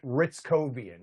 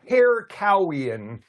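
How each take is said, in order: First: The name begins with an R sound. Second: The name begins with an H sound. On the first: This is how the owner of the name says it. The speaker calls it right. "he pronounces it" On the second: This is how the spelling looks like it reads. The speaker calls it wrong. "if you look at it, you would want to say"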